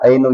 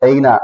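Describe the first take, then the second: First: The word ends with a u vowel. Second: The word ends with an a vowel. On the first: The speaker calls it wrong. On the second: The speaker calls it right.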